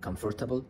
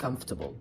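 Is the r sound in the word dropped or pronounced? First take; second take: pronounced; dropped. First: The r sound is clearly pronounced. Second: The r sound is dropped entirely. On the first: "ان انت شخص مبتدئ بتنطقها" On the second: "النيتيف سبيكر بينطقوا الار كانها مش موجوده"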